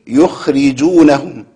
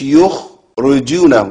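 First: The r is followed by an i vowel. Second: The r is followed by a different vowel. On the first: The speaker calls it right. "الكسر مهم جدا" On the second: The speaker calls it wrong. "مش"

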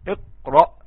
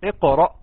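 First: The qaf is held silent with no bounce. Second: The qaf ends with a short echoing bounce. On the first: The speaker calls it wrong. "لا كده انت سكنتها ما قلقلتهاش" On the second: The speaker calls it right. "شوف بينطق ازاي"

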